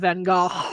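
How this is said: It is said Dutch-style, rasping in the throat.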